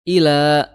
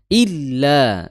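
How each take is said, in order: First: The l sound is single and short. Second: The l sound is doubled and held. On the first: It means to. The speaker calls it wrong. "kalau sampai kita salah baca menjadi ila, itu menjadi ke" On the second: It means except. The speaker calls it right. "Illa di situ ada tasydid ya"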